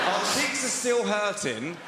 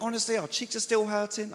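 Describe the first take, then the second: First: Very slow, loud, higher-pitched quote; incredulous drawn-out replay; suggestive repeat. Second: Said in the usual way. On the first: Retold or imitated. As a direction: stretch each word for the double meaning. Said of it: "this couple approached me". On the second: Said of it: "She was like".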